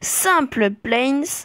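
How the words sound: It is said with a half-French accent. "avec un accent semi-français"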